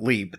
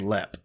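First: The vowel is a long ee sound. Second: The vowel is a short e sound. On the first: The speaker calls it wrong. "they don't leap" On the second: The speaker calls it right. "they lep"

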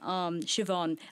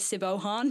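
First: The name is said without a b sound. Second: The name is said with a b sound.

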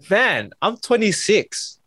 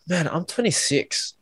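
First: The voice sounds lively and excited. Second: The voice sounds flat and dejected. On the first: Being 26 feels like something to celebrate. The speaker calls it right. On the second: Being 26 feels like a burden. The speaker calls it wrong.

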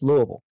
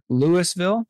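First: The name is mumbled, with syllables slurred together. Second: Every syllable of the name is said distinctly. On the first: The speaker is from the area. The speaker calls it right. "we all say it like we've got a bunch of bourbon and marbles in our mouth. It's just Louisville" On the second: The speaker is not from the area. The speaker calls it wrong. "I can tell immediately if somebody's not from here because they'll say Louisville"

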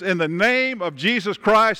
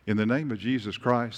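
First: It is shouted loudly and forcefully. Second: It is said quietly and calmly. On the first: The command is given with full force. The speaker calls it right. "I believe that she was screaming the message that she was screaming. And I believe that that day, Paul said this" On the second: The command is given timidly. The speaker calls it wrong. "Maybe this way"

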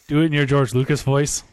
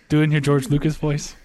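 No difference in how they are said.

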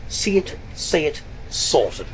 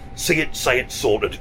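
First: It is said in a put-on posh female voice. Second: It is said in the speaker's ordinary voice.

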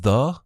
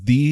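First: The word ends in a short uh vowel. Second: The word ends in a long ee vowel. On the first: "instead of the" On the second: "added the second E because she definitely wanted everyone to pronounce the as the"

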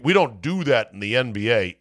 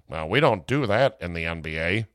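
First: It is said in his own normal voice. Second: It is said in a put-on white executive voice.

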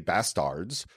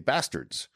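First: The second vowel sounds like an A. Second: The second vowel sounds like an E. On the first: The speaker calls it wrong. "people don't say bastards" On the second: The speaker calls it right. "which sounds like an E"

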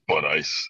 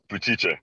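First: The surname is pronounced the American way. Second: The surname is pronounced the Italian way. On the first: The speaker calls it wrong. "People see that and go" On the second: The speaker calls it right. "How do you say it in Italian?"

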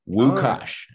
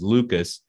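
First: The name begins with a W sound. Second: The name begins with an L sound. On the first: "in Poland, you would pronounce that Wukasz, like with a W" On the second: "his name was Lucas"

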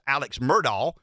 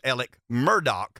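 First: The first name ends in a ks sound. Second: The first name ends in a k sound. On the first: This is how the wider nation says the name. The speaker calls it wrong. "The nation knows it as" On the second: This is how locals who know him say the name. The speaker calls it right. "We know it as"

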